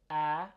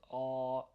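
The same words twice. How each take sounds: First: A as in cat; a front, thin "a" sound; a, held light and forward. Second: A like "aw"; a, held dark and open; heavy a. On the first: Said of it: "instead of a". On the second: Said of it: "you're saying a". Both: Shown as a demonstration.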